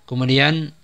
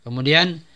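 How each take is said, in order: The two takes are said the same way.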